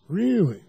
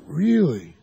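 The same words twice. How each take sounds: First: Really? raised in mock disbelief; tossing back Really? to break their mood; surprised really. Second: Said in the usual way. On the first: Shown as a demonstration. Coach breaking a client's pattern with a questioning Really?. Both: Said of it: "Or I'd say".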